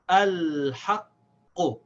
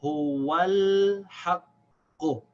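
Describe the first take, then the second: First: "al-haqqu" very slow, long l, held q released loudly; louder model "al-haqqu"; hamza pronounced, joined. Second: "huwal haqqu" very slow, wa joined into long l; louder joined "huwal haqqu", q held; silent hamza, connected. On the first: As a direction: stretch "al-haqqu", opening a sounded. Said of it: "so we pronounce it". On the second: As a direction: drop the a of al, stretch "huwal haqqu". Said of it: "waw will connect to this lam". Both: Shown as a demonstration.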